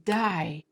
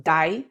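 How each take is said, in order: First: "די" drawn out, meaning "no way"; disbelieving intonation. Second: "די" said louder, as an order to stop; a firm, loud "די" meaning enough; firm stop command. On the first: Teacher shows reaction to bad news, disbelieving "די". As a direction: stretch "די" in stunned disbelief. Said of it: "Pay attention to my intonation". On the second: Teacher shows the wrong reading, firm command "די". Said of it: "It is not". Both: Shown as a demonstration.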